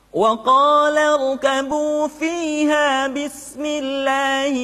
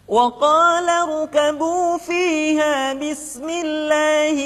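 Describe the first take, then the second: Both takes have the same delivery.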